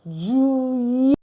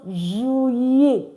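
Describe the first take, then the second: The two takes are said the same way.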